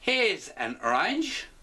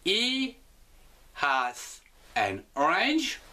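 First: He and has are contracted into one syllable. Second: He and has are said as two full words. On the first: "Nous allons contracter l'ensemble" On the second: "Nous allons l'écrire"

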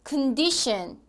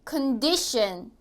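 No difference in how they are said.

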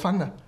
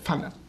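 First: It begins with an English th sound. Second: It begins without an English th sound. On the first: "wenn man das TH sprechen kann und dann immer sagt" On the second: "Meine Mutter würde das so sagen. Die kann kein TH sprechen"

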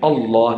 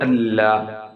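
First: The L sound is full and heavy. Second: The L sound is thin and light. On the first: The speaker calls it right. "lame jalala, lamim fakham, full and heavy" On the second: The speaker calls it wrong. "not Allah"

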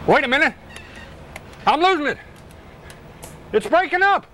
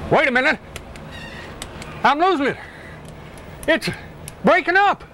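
First: The line is said at a faster pace. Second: The line is said at a slower pace.

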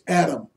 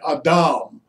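First: The name is said with the English pronunciation. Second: The name is said with a non-English pronunciation.

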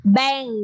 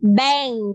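No difference in how they are said.

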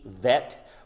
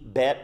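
First: The word begins with a V sound. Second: The word begins with a B sound. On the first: "or V" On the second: "like B"

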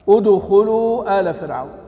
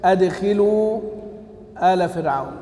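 First: It starts without a glottal stop; the kh-vowel is u. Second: It starts with a glottal stop; the kh-vowel is i. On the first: The people of Pharaoh are being addressed directly. "على الوصل ... واضمم" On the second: The people of Pharaoh are the object of being admitted. "بهمزة قطع ... بالكسر"

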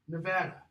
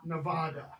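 First: The name is said the way locals say it. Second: The name is said the way outsiders say it. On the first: The speaker calls it right. "This, Nevada" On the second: The speaker calls it wrong. "not Nevada"

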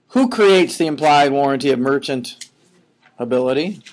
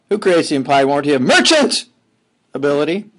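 First: The word is said with normal, even stress. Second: The part 'merchant' is strongly emphasized.

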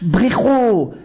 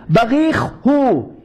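First: The two words are swallowed into one word. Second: The two words are said clearly and separately. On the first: The speaker calls it wrong. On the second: The speaker calls it right.

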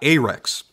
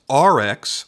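First: The word does not sound like R and X. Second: The word sounds like the letters R and X. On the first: The speaker calls it wrong. "not Arex" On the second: The speaker calls it right. "like the letters R-X"

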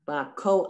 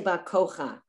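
First: The a vowel comes before the final ch. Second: The a vowel comes after the final ch. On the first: The speaker calls it right. "the vowel is always pronounced first" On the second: The speaker calls it wrong. "You would never say Bakocha"

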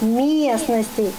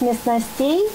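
First: The stress falls on the first syllable. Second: The stress falls on a later syllable. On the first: The speaker calls it right. "а правильно произносить" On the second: The speaker calls it wrong. "Мальчик произнес"

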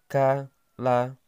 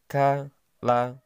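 No difference in how they are said.

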